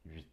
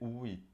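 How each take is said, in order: First: The u is a quick, weak glide. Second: The u is a full, separate vowel. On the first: The speaker calls it right. "esse U, ele é mais fraquinho, então a gente passa mais rápido" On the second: The speaker calls it wrong. "Não pode ser uit"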